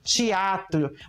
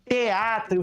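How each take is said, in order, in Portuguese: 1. Uma vogal é alterada no sotaque local. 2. As vogais são pronunciadas como são escritas.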